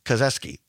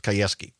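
First: "Kazeski" with a z sound in the middle; first-guess pronunciation. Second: "Kayeski" with a y sound, no z; corrected pronunciation. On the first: Host naming a Senate candidate, "Kazeski" said with a z. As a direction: say "Kazeski", z before the -eski. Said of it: "pronounced, Kayeski". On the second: Host correcting a candidate's name, "Kayeski" said with a y. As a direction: say "Kayeski", y glide before the -eski. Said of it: "I believe it's pr-, pronounced". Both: Real, not acted.

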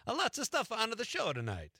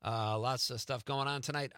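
First: Slipping back into the Italian accent, higher; a light Italian lilt, pitched up. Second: Said in the usual way. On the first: Shown as a demonstration. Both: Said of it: "I did it again".

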